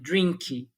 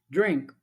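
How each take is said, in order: First: An extra i vowel follows the final consonant. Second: The word ends on a muffled consonant. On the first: The speaker calls it wrong. "você toma o vício de acreditar que a pessoa vai falar daquele jeito" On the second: The speaker calls it right. "o nativo ele vai falar"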